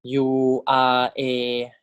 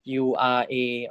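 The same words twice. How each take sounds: First: "U R A" drawn out very slowly; teacher spelling it out slowly. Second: Said in the usual way. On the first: Shown as a demonstration. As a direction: stretch each letter of "U R A". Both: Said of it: "So this is".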